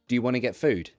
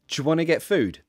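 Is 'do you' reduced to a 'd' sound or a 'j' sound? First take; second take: d sound; j sound. First: 'Do you' is reduced to a 'd' sound. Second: 'Do you' is reduced to a 'j' sound. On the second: "So this one, j"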